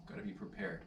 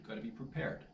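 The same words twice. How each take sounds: First: Said in the usual way. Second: A private reminder under the breath; whispered aside. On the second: Real, not acted. Vlogger reminding himself about drizzle, whispered aside. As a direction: whisper gotta be prepared to yourself.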